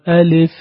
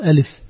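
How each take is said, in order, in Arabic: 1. الحركة على الـ'l' تُنطق تامة. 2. الحركة على الـ'l' مختلسة قصيرة. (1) "هكذا النطق الصحيح" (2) "لا تقل ألف ... أخذنا منها شيئا، سرقنا الحركة"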